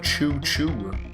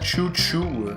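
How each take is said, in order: First: It is said with an ordinary English accent. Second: It is said with a French accent. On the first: An ordinary train makes this sound. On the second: A French train makes this sound.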